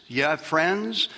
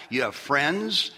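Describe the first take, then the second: No difference in how they are said.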